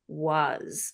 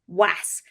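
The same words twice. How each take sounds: First: Has an 'o' vowel and ends in z. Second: Blended from plain letter sounds, ending in s. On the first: The speaker calls it right. "the ox in red socks above the letter A and the Zuto from Pluto above the S" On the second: The speaker calls it wrong. "They sound out w, a, s, was, which absolutely could be phonetically correct"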